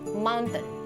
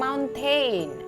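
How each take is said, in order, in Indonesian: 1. Akhirannya tidak dibaca sesuai tulisan. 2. Akhirannya dibaca sesuai tulisan, seperti 'tain'. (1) "Tapi yang benar itu adalah mountain" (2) "Memang tulisannya tain, tain, iya kan? Tapi jangan dibilang mountain"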